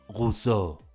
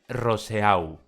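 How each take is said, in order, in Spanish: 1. Se pronuncia con una pronunciación de estilo francés. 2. Se pronuncia con una pronunciación de estilo español.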